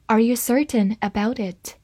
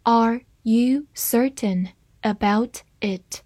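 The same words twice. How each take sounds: First: Said in the usual way. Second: One word at a time; slow teacher's model with a pause after each word; slow reading. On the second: Shown as a demonstration. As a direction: read slowly so learners can follow. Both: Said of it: "慢慢来读".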